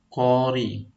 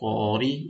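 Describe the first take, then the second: First: The first vowel is clearly held long. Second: The first vowel is short. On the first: The speaker calls it right. "Itu yang betulnya. ... harus jelas itu panjang" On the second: The speaker calls it wrong. "Kalau kita baca kori itu salah"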